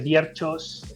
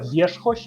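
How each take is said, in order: First: The surname is said with Spanish sounds. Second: The surname is said with Polish sounds. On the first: This is how Spanish speakers usually say it. "En castellano todo el mundo dice Wierchos" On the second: This is the real native pronunciation. "realmente se pronuncia Wierzchoś en polaco"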